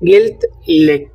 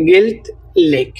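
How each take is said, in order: First: Said in the usual way. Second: গেলথলেক drawn out syllable by syllable; teacher slowing গেলথলেক right down for the class; slow spelled-out demo. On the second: Shown as a demonstration. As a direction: stretch গেলথলেক slowly so learners catch each sound. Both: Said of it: "এবং স্ত্রীবাচক হচ্ছে".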